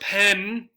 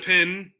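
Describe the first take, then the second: First: The vowel sounds like the one in 'pen'. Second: The vowel sounds like the one in 'pin'. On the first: This is the standard way of saying it. "what we would say would be the correct uh, pronunciation" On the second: This is a regional Ohio way of saying it. "often in Ohio, it sounds like pin"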